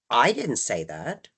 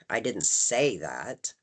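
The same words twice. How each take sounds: First: The stress falls on the word I. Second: The stress falls on the word say. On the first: Someone else said it. "that implies that somebody else did" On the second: Those words were not used, but that was meant. "Putting the emphasis on say"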